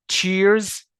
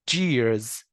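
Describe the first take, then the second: First: تشيرز with voiceless "ch", high, loud and rising; ch sound in تشيرز. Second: جيرز with voiced "j", falling; j sound in جيرز. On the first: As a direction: say تشيرز as "cheers", punching the "ch". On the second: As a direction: say جيرز as "jeers". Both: Shown as a demonstration. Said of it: "تعال نشوف الورد بيرز بين تش ساوند".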